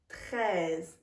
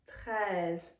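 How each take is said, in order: Both takes have the same delivery.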